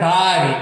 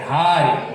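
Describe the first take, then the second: First: The first consonant has no puff of air. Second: The first consonant has a puff of air. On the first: The speaker calls it wrong. "não é Dari" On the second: The speaker calls it right. "é Dhari"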